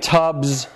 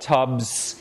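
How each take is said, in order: First: The final consonant is voiced. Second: The final consonant is voiceless. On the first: The speaker calls it right. "is fine" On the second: The speaker calls it wrong.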